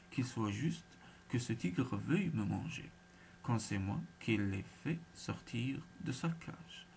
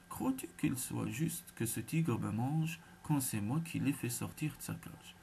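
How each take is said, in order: First: Very distinctly. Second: Raised voice. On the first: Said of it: "je vous prierai de parler bien distinctement". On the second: Brahmin repeating himself to the jackal, voice mildly raised. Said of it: "en élevant la voix". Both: A narrator's reading.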